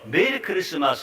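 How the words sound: It is said joyfully, with deep feeling.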